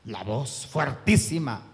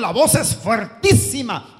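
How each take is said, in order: First: Said in the usual way. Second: Slow, booming, much louder; mighty voice. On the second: Acted. Preacher booming out God's mighty voice. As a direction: boom it out like thunder.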